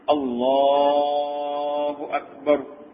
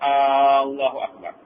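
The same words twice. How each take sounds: First: The first vowel is kept short. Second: The first vowel is drawn out long. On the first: It states that God is the greatest. The speaker calls it right. "jangan panjang. Allahu Akbar. Gitu" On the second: It turns into a question about God's greatness. The speaker calls it wrong. "jangan buat Allahu Akbar. Jadi situ salah. Pasal arak ni bila kita tarik dua, dia jadi tanda tanya"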